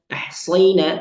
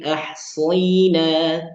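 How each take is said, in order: First: The 'ay' glide is said abruptly and hard. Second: The 'ay' glide is said softly and smoothly. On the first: The speaker calls it wrong. "jangan baca ahsayna" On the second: The speaker calls it right. "perlu agak dilembutkan"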